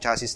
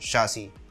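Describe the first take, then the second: First: The word is said with a local Filipino pronunciation. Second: The word is said with an English pronunciation. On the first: It is easier for most local listeners to understand. "since Tagalog po yung format ... para mas madali siyang maintindihan" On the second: It is the proper pronunciation of the word. "the proper pronunciation of that is"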